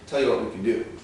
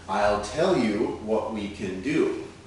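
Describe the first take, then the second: First: The phrase is said quickly with reduced words. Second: The phrase is said slowly and fully. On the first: "More quickly" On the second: "let's look at the changes slowly"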